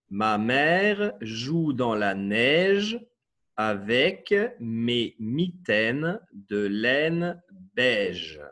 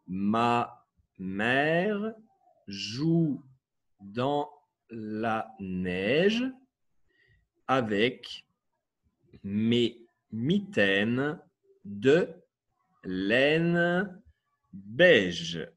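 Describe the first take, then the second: First: The sentence is read at a normal pace. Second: The sentence is read slowly and gently.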